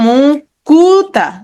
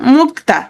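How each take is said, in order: First: An u vowel is inserted between k and t. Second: The k and t are joined with no vowel. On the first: "ক আর তয়ের মাঝখানে একটা উ ধ্বনি চলে আসছে" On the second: "কয়ের সাথে কোনো ধ্বনি নাই"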